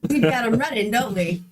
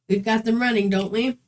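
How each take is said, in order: First: It is said in a put-on Dave character voice. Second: It is read in a plain, natural voice.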